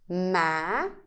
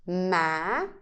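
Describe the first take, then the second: First: The pitch rises from low to high. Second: The same.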